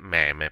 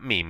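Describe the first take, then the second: First: The word is pronounced the Italian way. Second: The word is pronounced the English way. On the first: "possiamo dire in italiano" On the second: "in inglese"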